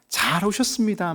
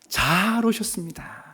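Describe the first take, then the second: First: It is said flatly, without any warmth. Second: It is said warmly, with heartfelt feeling. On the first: The greeting is only a formality. The speaker calls it wrong. "말은 하는데 진짜 영혼이 없어서는 안 되거든요" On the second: The guest is truly welcome and valued. The speaker calls it right. "고객님처럼 하지 마시고 진심을 담아서"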